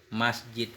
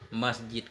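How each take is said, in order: Both takes have the same delivery.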